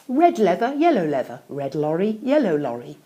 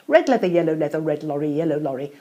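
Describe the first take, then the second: First: It is said at a slow, unhurried pace. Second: It is said at a fast, sped-up pace.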